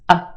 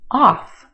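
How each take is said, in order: First: The vowel is reduced to a schwa. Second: The vowel is a full, open vowel. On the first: "Put it in this word and it becomes a" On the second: "O F F"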